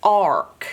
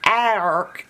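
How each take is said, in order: First: "ark" with an open "ar" as in car; correct bossy-R pronunciation. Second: "ark" with the short A of ant; wrong short-A pronunciation. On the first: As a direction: say ark with the A opened to "ah" before R. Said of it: "it's pronounced". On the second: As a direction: say ark as "a-rk", A as in cat. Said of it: "It's not pronounced". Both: Shown as a demonstration.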